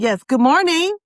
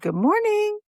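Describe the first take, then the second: First: It is said louder, speaking up. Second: It is said at a normal, soft volume.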